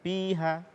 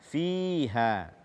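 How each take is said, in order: First: The word begins with a p-like sound. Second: The word begins with a breathy f sound. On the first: The speaker calls it wrong. "bukan piha" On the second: The speaker calls it right. "membaca huruf fa tanpa hamas"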